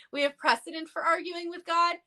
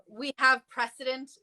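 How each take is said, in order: First: Raised, more forceful retelling; quoting with triumphant emphasis; emphatic quote. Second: Said in the usual way. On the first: Retold or imitated. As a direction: hit it harder this time, higher. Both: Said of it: "Doctor Huju in the comments said".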